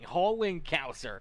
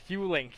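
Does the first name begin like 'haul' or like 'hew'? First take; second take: haul; hew. First: The first name begins like the word 'haul'. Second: The first name begins like the word 'hew'. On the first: The speaker calls it wrong. "I thought maybe it was going more towards Hauling" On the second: The speaker calls it right. "Hewling makes it a little bit better"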